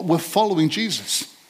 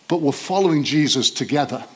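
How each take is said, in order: First: Said in the usual way. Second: Together weighted as the key word; following Jesus together, leaning into together; stress on together. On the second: Shown as a demonstration. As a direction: land on together.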